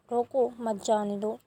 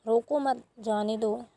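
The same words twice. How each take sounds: First: "रोको", a short pause, then "मत जाने दो"; pause after रोको. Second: "रोको मत", a short pause, then "जाने दो"; pause after मत. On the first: Teacher showing how a comma changes meaning, pause after "रोको". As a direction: break the phrase right after "रोको", joining "मत" to "जाने दो". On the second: Teacher showing how a comma changes meaning, pause after "मत". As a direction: break the phrase right after "मत". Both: Shown as a demonstration. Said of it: "तो इस तरीके से".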